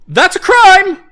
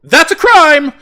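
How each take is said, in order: First: High, loud mocking yell; mocking noble cry. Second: High, loud mocking yell again; mocking noble cry. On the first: First of repeated line. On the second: Second of repeated line. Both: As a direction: jeer it like a snobby noble.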